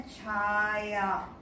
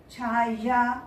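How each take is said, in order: First: छाया said the everyday spoken way, with an e glide after the ch; spoken pronunciation. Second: छाया said letter by letter as written; spelling pronunciation. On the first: Teacher gives the spoken form of छाया to students. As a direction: say छाया the way people actually say it. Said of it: "हम लोग बोलते हैं छाया". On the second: Teacher sounds out छाया as written before the spoken form. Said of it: "को हम लोग बोलते हैं छाया". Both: Shown as a demonstration.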